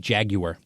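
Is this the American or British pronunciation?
British. It is said the English way.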